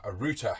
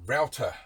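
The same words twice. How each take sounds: First: Router said as "rooter"; router, first syllable like "root"; British pronunciation. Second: Router said as "row-ter"; American pronunciation. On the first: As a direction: say router with an OO sound. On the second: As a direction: say router to rhyme with "outer". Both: Shown as a demonstration.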